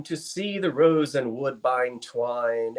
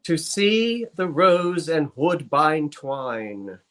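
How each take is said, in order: First: Slow, measured verse reading; poem recitation. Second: Very slow, drawn-out recitation; slowed cadence. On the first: Acted. Reciting a Burns verse before being asked to slow down, measured recitation. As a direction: recite it as old verse, unhurried. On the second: Pretend. Partner asked for a slower verse, very slow poem recitation. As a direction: linger on every word of the verse. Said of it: "Slow your cadence".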